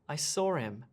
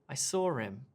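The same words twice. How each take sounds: First: The h is dropped, linking with an r-like sound. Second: The h is dropped, linking with an r-like sound.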